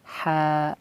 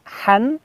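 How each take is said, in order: First: The syllable ends with an open vowel. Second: The syllable ends with an n sound. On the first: The speaker calls it right. "melainkan ha" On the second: The speaker calls it wrong. "tidak dibaca han"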